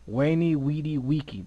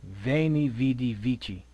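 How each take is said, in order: First: Each word begins with a w sound. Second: Each word begins with a v sound. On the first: This is the classical Latin pronunciation. "that's the classical Latin" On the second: This is the modern Latin pronunciation. "the modern Latin"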